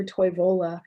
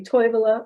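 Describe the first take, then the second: First: "Toivola" stressed on VO; second-syllable stress. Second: "Toivola" stressed on TOI; first-syllable stress. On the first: Lecturer showing the other way people say it, "Toivola" with VO stressed. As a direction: move the stress to the middle of "Toivola". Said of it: "people might say Toivola or". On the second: Lecturer showing Finnish stress, "Toivola" with TOI stressed. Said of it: "the stress for syllable". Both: Shown as a demonstration.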